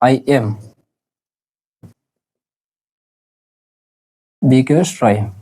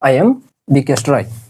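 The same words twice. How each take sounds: First: The word 'am' is drawn out and long. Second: The word 'am' is said short and quick. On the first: The speaker calls it wrong. "আপনারা আ অনেকে এইভাবে এটা এইভাবে বলেন" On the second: The speaker calls it right. "যতটা পারেন সংক্ষিপ্ত বলার চেষ্টা করবেন"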